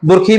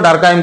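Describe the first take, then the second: First: The name ends with a 'keem' sound. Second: The name ends with a 'kime' sound. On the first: This is the usual Hindi way of saying it. "Mostly हम लोग दुर्खीम ही बोलते हैं" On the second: This is the English way of saying it. "English का pronunciation ... डरखाइम कहा जाता है"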